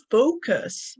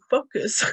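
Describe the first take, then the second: First: "focus" slowly, with a long gliding O-U; corrected long O. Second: "focus" with a short Spanish O, like a swear word; old short O. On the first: Learner showing the English O, long-vowel focus. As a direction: stretch the O in "focus" into oh-oo. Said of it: "if I wanna say a word". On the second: Learner showing how she used to say it, short-O focus. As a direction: clip the O in "focus" short and pure. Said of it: "I used to say focus". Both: Shown as a demonstration.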